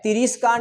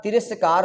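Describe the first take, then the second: First: तिरस्कार misread as ti-REES-kaar; तिरस्कार with long I after the r; wrong "ree". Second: तिरस्कार as ti-RAS-kaar; तिरस्कार with "ras", no "ree"; correct short "ra". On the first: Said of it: "ये री नहीं आएगा भाई". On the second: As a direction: say तिरस्कार with plain short A after r. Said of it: "direct ही आएगा". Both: Shown as a demonstration.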